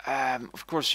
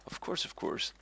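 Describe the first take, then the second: First: Said out loud and higher; louder. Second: Breathy whispered repeat; whispering. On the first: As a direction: push it out louder. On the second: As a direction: whisper it to yourself. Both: Shown as a demonstration. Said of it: "I'm repeating myself".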